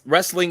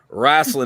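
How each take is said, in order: First: It is said with the standard pronunciation. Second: It is said with an old-school pronunciation. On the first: This is the proper way to say it. "is the proper way to say it" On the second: This is how old-school wrestlers say it. "is what a lot of the old school boys call it"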